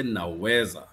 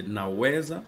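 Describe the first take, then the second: First: "naweza" firmly with a falling end; statement intonation. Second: "naweza" rising at the end as a question; question intonation. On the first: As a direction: state "naweza" loudly, pitch dropping at the end. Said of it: "as a statement". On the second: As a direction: ask "naweza" louder, pitch climbing on the last syllable. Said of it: "as a question". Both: Shown as a demonstration.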